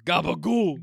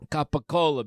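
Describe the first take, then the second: First: It uses a Staten Island Italian pronunciation. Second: It uses the standard pronunciation of the word.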